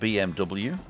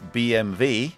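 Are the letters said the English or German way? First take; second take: English; German. First: The letters are named with English letter sounds. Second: The letters are named with German letter sounds. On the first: The speaker calls it wrong. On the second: The speaker calls it right.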